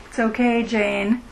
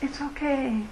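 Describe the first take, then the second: First: Said in the usual way. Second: "It's okay" said much softer, easing down at the end; gentle reassurance. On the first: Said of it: "if the Dalai Lama were telling me". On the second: Retold or imitated. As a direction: breathe "It's okay" quietly, like comforting a friend. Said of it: "Maybe it would be just".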